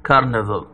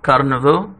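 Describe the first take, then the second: First: Carnival slowly, stressed on car, not كرنفال; slow model of carnival, English vowels. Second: Carnival with English vowels, stress on car. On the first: Teacher correcting students: carnival said slowly in English. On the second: Teacher correcting students: carnival said the English way. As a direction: say carnival the English way, not كرنفال. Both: Shown as a demonstration. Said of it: "ما نقولش كرنفال".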